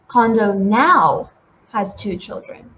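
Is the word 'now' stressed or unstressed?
stressed. The word now is stressed.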